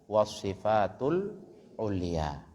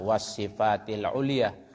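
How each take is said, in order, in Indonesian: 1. Kata itu diakhiri dengan vokal 'u'. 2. Kata itu diakhiri dengan vokal 'i'. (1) "Yang semestinya di situ" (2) "dulu salah di awal cetakannya dibaca wasifati"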